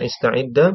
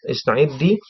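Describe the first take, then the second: First: The word ends with a short a vowel. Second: The word ends with a short i vowel.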